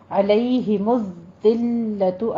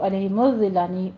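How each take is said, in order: First: عَلَيْهِمُ الذِّلَّةُ slow, pressing and holding ذّ and لّ; measured, firm recitation of عَلَيْهِمُ الذِّلَّةُ; firm doubled letters. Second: عَلَيْهِمُ الذِّلَّةُ rushed, with ذّ and لّ left slack; quick, lax misreading of عَلَيْهِمُ الذِّلَّةُ; wrongly soft doubling. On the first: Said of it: "سختی کر کے تھوڑا رک کے پڑھا کریں". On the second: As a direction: hurry through الذِّلَّةُ without holding the doubled letters. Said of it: "نرمی سے نہیں پڑھنا". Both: Shown as a demonstration.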